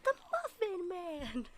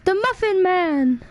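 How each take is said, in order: First: Slow, much softer version; quiet amused echo; soft replay. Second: Slow, loud, high shouted line; hammed-up movie shout; excited shout. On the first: Acted. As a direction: say it back hushed. Quiet replay of shouted line. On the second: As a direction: bellow it like the film.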